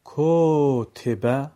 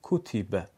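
First: "کوتیبه" stretched very slowly and louder as kotebe, o and e in place of u and i; mispronounced "کوتیبه" kotebe, slow and loud with a rising end; wrong drawn-out reading. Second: "کوتیبه" said kutibe, short u in one beat, falling; correct short damma. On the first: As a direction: drag "کوتیبه" out as kotebe, higher and rising, to show the mistake. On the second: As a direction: read "کوتیبه" crisply as kutibe with no stretching. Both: Shown as a demonstration. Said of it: "خطاست".

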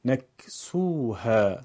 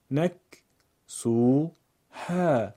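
First: نکسوها in one slow, connected flow; joined-up reading. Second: نک، سو، ها as three separate syllables; syllable-by-syllable reading. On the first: Teacher puts the pieces together: نکسوها slowly as one word. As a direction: run نکسوها together with long vowels. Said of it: "پس از اون به صورت پیوسته قرائت کنید". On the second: Teacher breaks up a word for learners: نک، سو، ها spaced out. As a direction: pause after each part: نک، سو، ها. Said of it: "بخش خوانی کنید". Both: Shown as a demonstration.

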